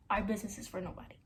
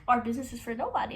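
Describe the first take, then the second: First: Fast, hushed whisper; whispered quote. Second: Said in the usual way. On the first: Retold or imitated. Quoting boyfriend's secret line in a whisper. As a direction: murmur it like a secret.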